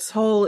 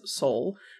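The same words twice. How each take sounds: First: It is said closer to the Korean pronunciation. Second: It is said with a typical American pronunciation. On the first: The speaker calls it right. "Seoul is closer to how it actually sounds" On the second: The speaker calls it wrong. "Americans will pronounce the city as Seoul"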